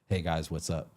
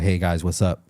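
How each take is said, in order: First: The voice is farther away and thinner. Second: The voice is close, full and bassy. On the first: The speaker calls it wrong. "if you just move it slightly back" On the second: The speaker calls it right. "It's gonna be bassy"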